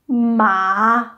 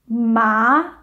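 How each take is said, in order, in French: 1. La hauteur descend puis remonte. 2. La hauteur monte du milieu vers le haut. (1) "Le troisième descend, ensuite monte" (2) "Le deuxième monte"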